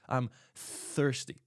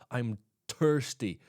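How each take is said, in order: First: Thirsty begins with a th sound. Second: Thirsty begins without a th sound. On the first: The speaker calls it right. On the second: The speaker calls it wrong.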